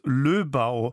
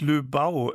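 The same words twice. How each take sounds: First: The stress is on the first syllable. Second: The stress is on the second syllable. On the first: The speaker calls it right. "dass Löbau, also auf der ersten Silbe, betont wird" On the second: The speaker calls it wrong. "und nicht Löbau, wie ich sagte"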